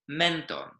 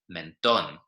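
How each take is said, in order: First: The stress is on the second-to-last syllable. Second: The stress is on the last syllable. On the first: The speaker calls it wrong. "we'd usually expect the stress to come on the second to last syllable" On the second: The speaker calls it right. "the stress comes on the last syllable"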